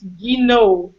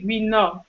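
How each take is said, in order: First: The name ends without a T sound. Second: The name ends with a T sound. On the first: "if you say it in French, it's Guinot. You don't say the T" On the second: "for English speakers, you can say Guinot"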